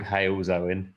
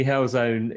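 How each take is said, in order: First: "Hailzone" with a long "ay"; corrected place name. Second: "Hellzone" with a short e, drawn out; mispronounced place name. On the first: Host correcting the place name, "Hailzone" with an "ay" vowel. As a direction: say "Hailzone" starting like "hail", not "hell". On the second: Host admitting the wrong name, "Hellzone" with short "hell". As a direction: say "Hellzone" slowly with "hell" as in inferno. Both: Shown as a demonstration. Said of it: "actually called Hailzone".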